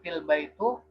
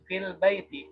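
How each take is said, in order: First: The last word ends with a u vowel. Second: The last word ends with an i vowel. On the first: The speaker calls it wrong. "itu salah" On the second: The speaker calls it right. "hasilnya menjadi fil baiti"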